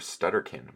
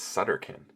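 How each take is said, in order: First: The name begins with an st sound. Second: The name begins with a plain s sound. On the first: The speaker calls it wrong. "I always pronounce it Professor Stutterkin" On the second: The speaker calls it right. "but it's Sutterkin"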